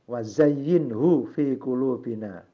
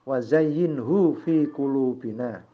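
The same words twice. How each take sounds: The two takes are said the same way.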